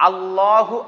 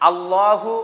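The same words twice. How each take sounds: The two takes are said the same way.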